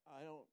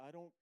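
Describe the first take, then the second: No difference in how they are said.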